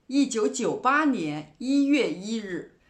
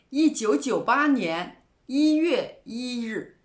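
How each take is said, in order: Both takes have the same delivery.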